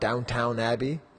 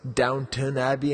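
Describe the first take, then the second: First: The name is said with an American pronunciation. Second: The name is said with a British pronunciation. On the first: The speaker calls it wrong. "if there was an American commercial, they would call it Downtown Abbey" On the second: The speaker calls it right. "I know it's Downton Abbey"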